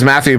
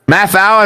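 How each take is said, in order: First: The name ends with an 'oo' sound. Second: The name ends with an 'ow' sound. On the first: It is the proper form of the name. The speaker calls it right. "that's not how it's pronounced, it is Matthew" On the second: It is a playful nickname. The speaker calls it wrong. "as I like to call him"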